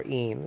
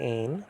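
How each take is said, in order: First: Een with a long ee vowel; modern pronunciation. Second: Ein said like "ain", with an ay vowel; older pronunciation. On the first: Teacher giving today's form of the word, modern pronunciation. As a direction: say een to rhyme with "seen". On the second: Teacher naming the Greek word, older pronunciation. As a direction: give ein the vowel of "they". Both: Shown as a demonstration. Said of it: "it's now pronounced".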